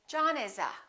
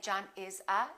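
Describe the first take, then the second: First: The words are linked smoothly together. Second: The words are said separately with breaks.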